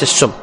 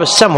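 First: السم said "as-summ", with ḍamma on the sīn; wrong vowel u. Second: السم said "as-samm", with fatḥa on the sīn; correct vowel a. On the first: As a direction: put a u after the s in السم. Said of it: "وليس السم". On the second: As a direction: open السم with an a after the s. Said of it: "الصواب السم وليس السم". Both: Shown as a demonstration.

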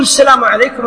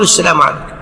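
First: Imam giving the closing salam, pitched up a little; leading salam; imam's salam. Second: Follower's low response; follower's salam. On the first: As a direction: give the salam as the leader. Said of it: "هو يقول". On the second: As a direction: lower echo of the imam's salam. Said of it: "أنت تقول". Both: Shown as a demonstration.

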